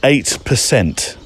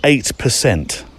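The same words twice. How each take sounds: First: "eight" dito devagar e com peso; pause, then punch "eight percent"; stress on eight. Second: "Eight percent" repetido, lento e firme; slow, heavy "Eight percent" again; repeated for emphasis. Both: Shown as a demonstration. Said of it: "wait for it".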